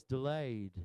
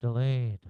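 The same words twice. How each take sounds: First: Southern drawn-out "delayed", pitched lower; low Southern-accented demo. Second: Loud, low northern voice; mock northern accent, louder and lower. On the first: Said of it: "say it with a southern voice". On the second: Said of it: "say it with a northern voice". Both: Shown as a demonstration.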